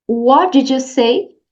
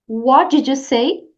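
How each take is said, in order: No difference in how they are said.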